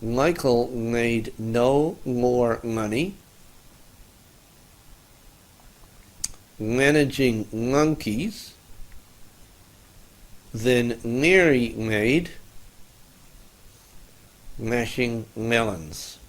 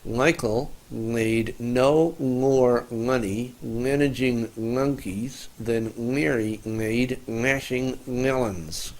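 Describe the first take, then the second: First: The sentence is said slowly, piece by piece. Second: The sentence is said at a normal, quicker pace.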